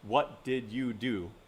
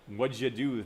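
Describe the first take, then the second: First: Every syllable is said clearly and separately. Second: The word 'did' is shortened, run together. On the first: "Instead of enunciating each one of those syllables" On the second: "That's a lighting"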